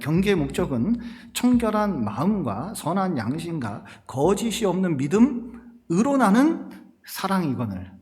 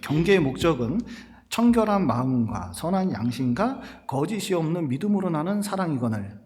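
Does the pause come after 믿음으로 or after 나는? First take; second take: after 나는; after 믿음으로. First: The pause falls after 나는, before 사랑이거늘. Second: The pause falls before 나는, grouping it with 사랑이거늘. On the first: The speaker calls it right. "이걸 어떻게 읽어야 되냐면" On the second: The speaker calls it wrong. "이거 잘못 읽으면 이렇게 읽을 수가 있습니다"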